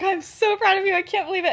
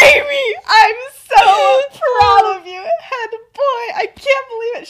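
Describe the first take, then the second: First: Milder gushing. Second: High, loud squeal of motherly pride; going off, ecstatic. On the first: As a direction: repeat the proud gush, toned down from a squeal. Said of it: "She's really going off here". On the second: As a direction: shriek with pride, stretching the words. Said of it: "She's, like, insane. She's really going off". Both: Acted.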